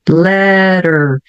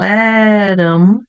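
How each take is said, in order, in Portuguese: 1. O t vira um flap e 'them' perde o início. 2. As duas palavras são ditas separadamente, com 'them' completo.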